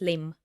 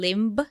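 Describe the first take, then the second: First: The word ends on the M, no B. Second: A B sound is pronounced at the end. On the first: The speaker calls it right. "it has silent B at the end" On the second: The speaker calls it wrong. "So it's not"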